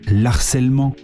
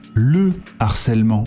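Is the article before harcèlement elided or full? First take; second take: elided; full. First: The article is elided into the noun. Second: The full article is said before the noun. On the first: The speaker calls it wrong. "on ne dit pas l'harcèlement" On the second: The speaker calls it right. "Avec un H aspiré. Il n'y a pas de liaison"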